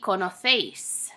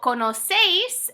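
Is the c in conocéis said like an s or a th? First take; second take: th; s. First: The c is said like a th. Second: The c is said like an s. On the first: This is how it is said in Spain. "in Spain would be conocéis" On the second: This is how it is said in Latin America. "how we would say it in Latin America"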